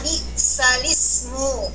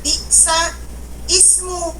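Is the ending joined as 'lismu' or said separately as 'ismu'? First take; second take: joined; separate. First: The l joins straight onto 'ismu' as 'lismu'. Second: The 'ismu' is said apart, without the joining l. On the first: The speaker calls it right. "Jadilah bunyinya bisalismu" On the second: The speaker calls it wrong. "jangan sampai lihat ... Wah ini dibaca bisa ismu"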